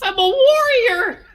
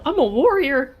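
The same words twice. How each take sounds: First: It is said boldly, with confidence. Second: It is said hesitantly, without confidence.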